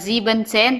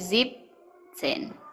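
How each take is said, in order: First: The first part is the full two-syllable 'sieben'. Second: The first part is shortened to one syllable. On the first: The speaker calls it wrong. "Bukan Ziebenzen" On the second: The speaker calls it right. "tapi Zipzen"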